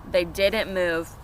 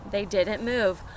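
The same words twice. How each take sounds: The two takes are said the same way.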